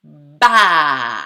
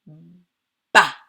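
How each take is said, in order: First: "ba" loud, with a very long a; stretched syllable. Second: Said in the usual way. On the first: Shown as a demonstration. Teacher showing the mouth opening, "ba" loudly drawn out. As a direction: open "ba" into a long, falling vowel. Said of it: "ensuite, elle fait ba". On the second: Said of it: "Est-ce que ma bouche fait un seul geste".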